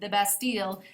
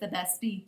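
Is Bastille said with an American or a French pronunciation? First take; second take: American; French. First: Bastille is said with an American pronunciation. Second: Bastille is said with a French pronunciation. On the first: The speaker calls it wrong. "in my American accent" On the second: The speaker calls it right. "The correct way is"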